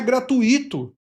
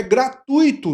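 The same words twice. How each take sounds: First: "gratuito" broken as gra-tu-Í-to; wrong stress on I. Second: "gratuito" stressed on TUI, gra-TUI-to. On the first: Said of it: "não é gratuito". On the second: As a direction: lean high and slow on the U of "gratuito". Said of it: "o U é o tônico". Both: Shown as a demonstration.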